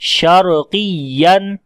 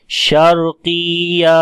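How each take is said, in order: First: The ya syllable is stressed with a raised voice. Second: The ya syllable is unstressed and drawn out long. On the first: The speaker calls it right. "या की आवाज को ऊंचा किया" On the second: The speaker calls it wrong. "बगैर नब्र के पढ़ेंगे तो ऐसा पता चलेगा कि आपने वहां पर लंबा कर दिया"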